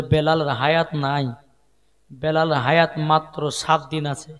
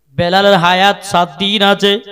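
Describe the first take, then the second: First: Said in the usual way. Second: Loud, ringing sermon delivery; projected preaching. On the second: Acted. Preacher repeating Bilal has seven days left, loud preaching. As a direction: project it out to the whole congregation.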